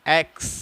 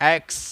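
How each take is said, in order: Both takes have the same delivery.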